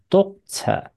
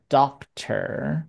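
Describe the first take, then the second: First: "doctor" with rounded O and no final R; British-style "doctor", ending in an open schwa. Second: "doctor" with the O opened to "ah" and a final R; slow American "doctor", sounding like "dahk-ter"; American AH vowel. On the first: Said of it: "听到英国人就是会念doctor". (英式 doctor，念 O、不卷舌) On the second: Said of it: "美国人喜欢念啊". (美式 doctor，O 念成啊) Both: Shown as a demonstration.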